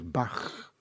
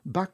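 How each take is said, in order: First: The name ends in a throaty ch sound. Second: The name ends in a hard k sound. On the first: This is the composer's proper name. The speaker calls it right. "on va dire comme il faut" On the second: This is how the beer brand is named. The speaker calls it wrong. "on ne dit pas Bach, on ne dit pas Jean-Sébastien Bach. Bach, c'est pour la bière"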